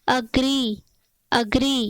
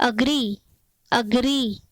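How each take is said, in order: No difference in how they are said.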